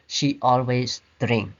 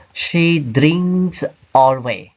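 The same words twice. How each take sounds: First: Said in the usual way. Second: Slow deliberate wrong example; wrong sentence. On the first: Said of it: "but we say". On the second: Shown as a demonstration. Teacher showing students the wrong position, slow and careful. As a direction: draw the mistake out slowly. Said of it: "we don't say".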